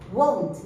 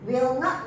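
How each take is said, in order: First: The words are joined into one contracted word. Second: Two separate words are said in full.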